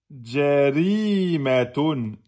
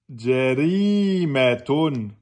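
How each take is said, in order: Both takes have the same delivery.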